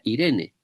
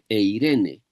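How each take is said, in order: First: The word begins with a plain 'ee' vowel. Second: The word begins with an 'ay' diphthong. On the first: This is the modern Greek reading. "Si fuera la pronunciación moderna, ... se leería Irene" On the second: This is the old Greek reading. "se dice eirene"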